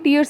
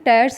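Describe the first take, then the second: First: The vowel sounds like the one in 'fears'. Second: The vowel sounds like the one in 'bears'. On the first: It would mean crying tears. The speaker calls it wrong. "टीयर्स नहीं है" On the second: It means ripping apart. The speaker calls it right. "टैर्स लिखेंगे यहाँ पे"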